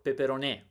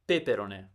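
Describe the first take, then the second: First: The stress is on the fourth syllable. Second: The stress is on the second syllable.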